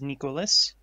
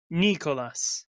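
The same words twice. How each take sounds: First: It is said in a plain, ordinary accent. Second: It is said in a heavy Russian accent.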